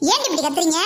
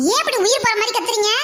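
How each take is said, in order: First: Said in the usual way. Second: Higher, faster rebuke; exasperated scolding. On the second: Acted. Aunt rebukes the screaming girls, faster and higher. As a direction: push the question out fast and high.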